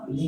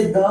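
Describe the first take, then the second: First: "दी" with an ee vowel; full article form. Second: "द" with a short neutral vowel; weak article form. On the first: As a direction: say "दी" ending in ee, not a schwa. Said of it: "कुछ लोग दी कहते हैं". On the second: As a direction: say "द" ending in a schwa. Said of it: "कुछ लोग इसे द". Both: Shown as a demonstration.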